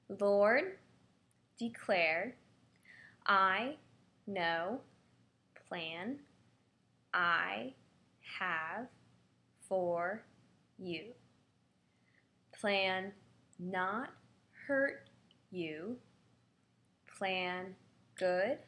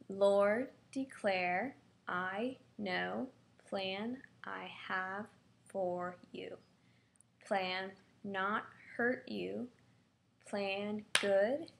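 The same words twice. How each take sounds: First: It is said slowly. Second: It is said at normal speed.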